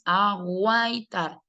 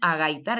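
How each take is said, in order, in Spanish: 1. La u después de la g se pronuncia. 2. La u después de la g es muda. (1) "sino que es aguaitar" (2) "El verbo no es agaitar"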